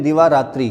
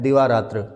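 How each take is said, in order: First: दिवारात्रि ending in a clear "ri"; wrong form. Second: दिवारात्र ending in "tra", no i; correct form. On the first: Teacher shows class a common mistake, दिवारात्रि ending in "i". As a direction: say दिवारात्रि with an i vowel at the end. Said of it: "वो गलत है". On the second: Teacher gives class the right word, दिवारात्र ending in "tra". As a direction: close दिवारात्र on a short "tra". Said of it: "सही जो है वो है". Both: Shown as a demonstration.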